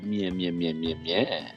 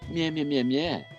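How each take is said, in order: First: It is said in a sexy voice. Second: It is said in a plain voice.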